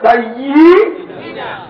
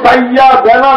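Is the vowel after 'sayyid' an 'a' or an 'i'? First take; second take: i; a. First: The vowel after 'sayyid' is an 'i' sound. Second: The vowel after 'sayyid' is an 'a' sound. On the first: The Prophet is our master. The speaker calls it right. "শব্দটা হবে সাইয়্যিদিনা" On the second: The Prophet is our servant. The speaker calls it wrong. "শব্দটা কিন্তু সাইয়্যিদানা না"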